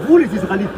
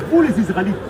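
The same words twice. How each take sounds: The two takes are said the same way.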